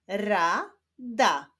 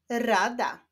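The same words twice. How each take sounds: First: "Rada" slowly split into ra, da; syllable by syllable. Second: Said in the usual way. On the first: Shown as a demonstration. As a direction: sound out "Rada" with a break between syllables. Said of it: "zapraszam Was do odczytywania sylab". ("Rada" powoli, z podziałem na ra, da) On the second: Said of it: "i łączenia ich w wyrazy".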